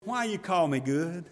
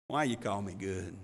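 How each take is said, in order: First: Said in the usual way. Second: Much softer, lower and tender; tender, smiling Jesus. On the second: Shown as a demonstration. Jesus gently smiling at the kneeling young man, tender. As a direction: say it like a loving smile breaking open. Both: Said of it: "sweet little loving smile".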